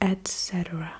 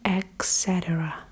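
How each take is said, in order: First: It begins with an 'et' sound. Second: It begins with an 'eks' sound. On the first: The speaker calls it right. "instead of et cetera ... It's et cetera" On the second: The speaker calls it wrong. "people say et cetera, et cetera ... Where do you get this x from?"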